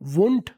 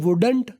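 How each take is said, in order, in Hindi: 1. n से पहले d की ध्वनि छोड़ दी जाती है। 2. n से पहले d की ध्वनि बोली जाती है। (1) "डी अगला नहीं बोलना, वुंट बोलना है" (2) "कुछ लोग बोलते हैं वुडंट"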